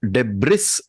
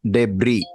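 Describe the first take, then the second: First: The final consonant sound is pronounced. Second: The final consonant sound is silent. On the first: The speaker calls it wrong. "when she said uh" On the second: The speaker calls it right. "it has to be pronounced debris. ... the S is silent"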